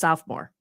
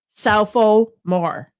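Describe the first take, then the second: First: The middle syllable is dropped, giving two. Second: All three syllables are pronounced fully. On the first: "as opposed to just sophomore" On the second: "pronunciating it as it's written"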